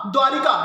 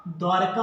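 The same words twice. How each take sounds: First: द्वारिका said with a clear i after र, as people commonly say it; द्वारिका with the extra i sound; common wrong form. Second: द्वारका said dwar-ka with no i after र, low and deliberate; correct form. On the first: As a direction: say द्वारिका the everyday way, dwa-ri-ka. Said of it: "हम लोग common sense में कहते हैं द्वारिका". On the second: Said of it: "क्या हो जाएगा?". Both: Shown as a demonstration.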